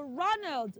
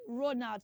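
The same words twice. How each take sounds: First: Ronald as "RON-uld"; correct pronunciation. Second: Ronald as "ro-nowt"; long O in Ronald, full "nowt" second syllable; wrong pronunciation. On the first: Teacher corrects the children, Ronald as "RON-uld". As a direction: open first vowel in Ronald, light "uld" ending. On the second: Teacher shows what not to say, Ronald as "ro-nowt". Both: Shown as a demonstration. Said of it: "not Ronald".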